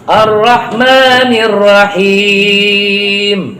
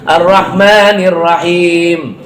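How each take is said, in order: First: The final long vowel is held for four beats. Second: The final long vowel is held for two beats. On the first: "empat ketukan" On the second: "cuma dua harokat"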